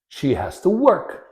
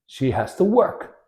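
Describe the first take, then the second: No difference in how they are said.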